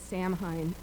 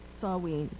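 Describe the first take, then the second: First: The word is said as English spelling suggests. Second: The word is said with its Druid pronunciation. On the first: This is the tempting everyday reading. "we are all tempted to say Samhain" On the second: This is how Druids say it. "The Druid is Samhain"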